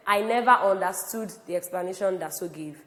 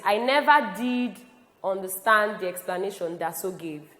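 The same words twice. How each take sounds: First: Said in the usual way. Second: DID held long and pushed harder; emphatic stress on did. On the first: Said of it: "That's just passing on information". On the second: Shown as a demonstration. Teacher reading an example of emphasis, stressing did. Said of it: "if I want to emphasize this further".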